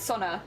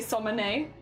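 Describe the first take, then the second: First: The name is said without an m sound. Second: The name is said with an added m sound. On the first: The speaker calls it right. "I think it's Sonne" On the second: The speaker calls it wrong. "I also add an M, so I say Somone"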